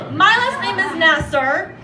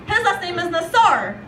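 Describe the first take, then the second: First: "Nasser" with the first syllable stressed, NASS-er. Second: "Nassar" with the last syllable stressed, nas-SAR; stress on second syllable of Nassar. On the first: Comic contrasting her surname with her boyfriend's, "Nasser" stressed on NASS. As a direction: say "Nasser" as NASS-er, weight up front. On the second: Comic giving boyfriend's near-identical surname, "Nassar" stressed on SAR. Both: Shown as a demonstration.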